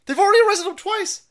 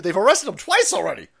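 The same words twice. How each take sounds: First: Already yelled up high and loud; outraged shout. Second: Said in the usual way. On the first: Real, not acted. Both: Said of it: "repeats the line louder".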